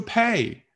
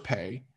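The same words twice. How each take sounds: First: "pay" with a strong aspirated p, pitched higher; right way. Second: Soft, lazy "pay"; wrong way. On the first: Teacher models a crisp, strongly aspirated "pay". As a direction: pop the p in "pay". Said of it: "你说pay". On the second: Teacher mimics a student's lazy "pay". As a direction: say "pay" with a weak, unaspirated p. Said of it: "你不要说pay". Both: Shown as a demonstration.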